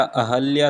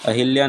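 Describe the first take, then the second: First: अहल्या said a-hal-ya, no i after h; the right अहल्या, plain a in hal; correct pronunciation. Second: अहिल्या said a-hil-ya, with i after h; the mistaken अहिल्या, short i in hil; wrong pronunciation. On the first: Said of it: "अहल्या सही शब्द है". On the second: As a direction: say अहिल्या as the common error. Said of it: "अहिल्या नहीं होता". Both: Shown as a demonstration.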